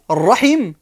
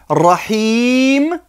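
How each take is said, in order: First: The vowel in the last syllable is short. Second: The vowel in the last syllable is long. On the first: It means womb or family ties. "Sans la voyelle longue" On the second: It means the most merciful. "Avec la voyelle longue, le grand I"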